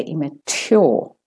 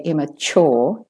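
First: "immature" with a true "tyaw" ending; t instead of ch. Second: "immature" with "chaw" at the end; Australian ch. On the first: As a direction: keep a clean t in "immature". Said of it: "make the t a t". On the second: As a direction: make the t in "immature" a ch. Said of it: "make it a ch there". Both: Shown as a demonstration.

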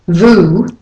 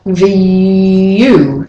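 First: Vu as a plain VOO; no y glide. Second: V U drawn out as v-YOU; intrusive y. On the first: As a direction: say vu with no y before the vowel. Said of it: "So it's not vu". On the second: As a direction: glide through a long y in V U. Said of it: "the y comes after the V". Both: Shown as a demonstration.

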